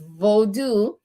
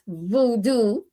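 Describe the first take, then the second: First: It is said the Haitian way. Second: It is said the common Western way. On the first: This is how the tradition's own people say it. The speaker calls it right. "it is voodoo" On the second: This is how outsiders say it. The speaker calls it wrong. "it is not voodoo like they pronounce it"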